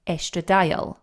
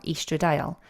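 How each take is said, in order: First: Estradiol said ESS-truh-dye-ol; short-e pronunciation. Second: Estradiol said EE-struh-dye-ol; long-e pronunciation. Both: Shown as a demonstration. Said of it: "depending on how you want to pronounce it".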